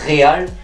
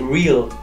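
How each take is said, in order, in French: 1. Ça se prononce comme l'espagnol 'ré-al', avec é. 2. Ça se prononce comme l'anglais 'real', sans é. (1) "Beaucoup disent Real, sauf que c'est pas le Real de Madrid" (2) "y a pas de E accent aigu. C'est Real"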